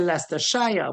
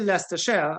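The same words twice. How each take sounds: First: It is said with a Trinidadian pronunciation. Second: It is said with an English pronunciation. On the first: "we in Trinidad we say" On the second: "they normally say"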